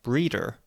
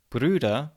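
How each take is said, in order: First: The vowel is unrounded, with an English r. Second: The vowel is rounded, with a German r. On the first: "Brüder becomes more like breeder" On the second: "the rounded U being pronounced as the unrounded E"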